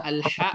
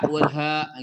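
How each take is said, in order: First: "ha" as the strong throaty Arabic ḥa; Arabic pharyngeal "ha", set apart from the light one; contrasted Arabic H. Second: "ha" as the light Arabic ha; plain glottal "ha", set apart from the throaty one; contrasted light H. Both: Shown as a demonstration. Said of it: "bunyi-bunyi yang mirip".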